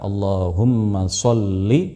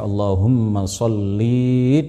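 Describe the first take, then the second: First: The final vowel after the l is short. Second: The final vowel after the l is long. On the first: It is the correct form of the prayer. The speaker calls it right. "bacaan yang benar adalah Allahumma sholli, dibaca pen, pendek" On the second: It addresses a woman. The speaker calls it wrong. "tidak boleh kita membaca Allahumma sholli dengan memanjangkan lam"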